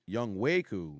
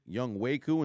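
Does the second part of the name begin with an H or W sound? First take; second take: W; W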